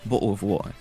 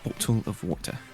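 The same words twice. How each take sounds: First: The T sounds are dropped or softened. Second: The T sounds are clearly pronounced. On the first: The speaker calls it wrong. "rather than ignoring the T's" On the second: The speaker calls it right. "pronounce the T's with emphasis"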